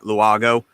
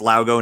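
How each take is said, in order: First: The name begins with a 'loo-ah' sound. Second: The name begins with a 'low' sound. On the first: The speaker calls it wrong. "not Luago" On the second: The speaker calls it right. "so it's Laugo"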